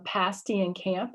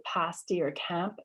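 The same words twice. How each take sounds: First: Said in the usual way. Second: Pasty and camp with the a lower and further back; low back vowel. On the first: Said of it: "is how I say those words". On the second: Shown as a demonstration. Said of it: "the tongue goes lower".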